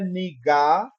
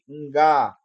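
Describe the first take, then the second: First: A vowel is inserted between the n and g. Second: The n and g form one consonant cluster. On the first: The speaker calls it wrong. "não é niga" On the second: The speaker calls it right. "encontro consonan- consonantal ali"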